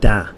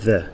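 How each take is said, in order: First: The word begins with a d sound. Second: The word begins with a th sound.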